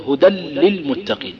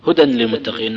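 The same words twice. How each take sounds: First: "هدى للمتقين" بلام مشددة دون نون, بطء; شدد اللام في "للمتقين" وأخفِ التنوين; إدغام التنوين في اللام. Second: Said in the usual way. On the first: Shown as a demonstration. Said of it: "يدغم في اللام". (نطق "هدى للمتقين" بإدغام كامل) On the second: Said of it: "نقول".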